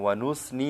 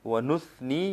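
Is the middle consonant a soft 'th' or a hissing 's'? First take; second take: hissing 's'; soft 'th'. First: The middle consonant is a hissing 's' sound. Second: The middle consonant is a soft 'th' sound. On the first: The speaker calls it wrong. "ये गलत है" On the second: The speaker calls it right. "ये ठीक है। सा को हम नरमी के साथ अदा करेंगे"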